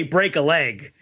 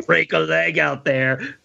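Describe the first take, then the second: First: Said in the usual way. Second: Slow, punchy action-hero line; lightly voiced tough-guy pep talk; Commando style. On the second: Podcaster mocking a movie line in a light Commando style. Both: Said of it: "that's like Commando style".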